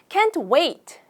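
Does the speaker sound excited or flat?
excited. The voice sounds lively and excited. The speaker is really looking forward to it. The speaker calls it right. "약간 이렇게 좀 신나는 말투로"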